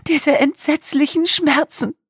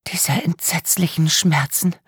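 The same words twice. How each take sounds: First: Sobbing. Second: Breathy whisper, slow and haunted. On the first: Sobbing witness recalls pain. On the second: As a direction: whisper the words as if reliving them. Victim whispers in shock. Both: A narrator's reading.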